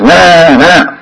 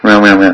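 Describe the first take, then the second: First: Put-on higher, drawn-out baby wail; imitated genuine crying. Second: Half-hearted imitation of a baby's wail; fake baby cry. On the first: Child crying for its mother, imitated wail. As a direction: wail like a baby who really needs mother. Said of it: "within two seconds of genuine crying". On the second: Baby faking tears for the mother, mock crying. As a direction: mimic a baby crying without meaning it. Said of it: "Fake crying goes to her mind".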